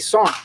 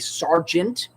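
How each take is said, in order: First: The word is clipped short with no g. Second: The word is said in full with the g. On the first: This is how soldiers say it. "we say sarn. The G is silent" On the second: This is how outsiders say it. "we don't say sergeant"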